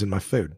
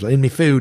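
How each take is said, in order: First: The word before food sounds like 'my'. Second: The word before food sounds like 'me'. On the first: "You say my" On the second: "sometimes in me food"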